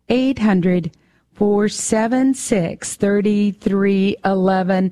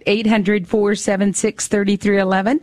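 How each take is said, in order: First: It is said a little more slowly. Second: It is said at normal speed.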